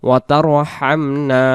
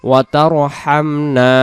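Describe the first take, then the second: The two takes are said the same way.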